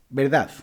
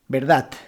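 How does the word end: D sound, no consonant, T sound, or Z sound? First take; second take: Z sound; T sound. First: The word ends with a th-like Z sound. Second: The word ends with a T sound. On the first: "En vez de D, utilizan la Z" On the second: "en vez de utilizar la D, utilizar la T"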